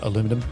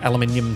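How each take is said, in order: First: The word is said the non-Australian way. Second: The word is said the Australian way. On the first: The speaker calls it wrong. "not aluminum" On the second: The speaker calls it right. "Us Aussies say it that way"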